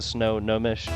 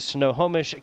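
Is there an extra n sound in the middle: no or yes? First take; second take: yes; no. First: The middle has an extra n sound. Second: The middle has an h sound, no extra n. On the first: The speaker calls it wrong. "I wrote it as two N's, like the Snow Nomish" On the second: The speaker calls it right. "This time I said it right"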